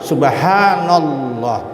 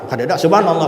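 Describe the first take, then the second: First: The long 'ha' vowel is held two beats. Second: The long 'ha' vowel is not held two beats. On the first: The speaker calls it right. "ha itu sebelumnya ada alif, kan dua satu alif berarti dua harakat" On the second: The speaker calls it wrong. "itu salah dah"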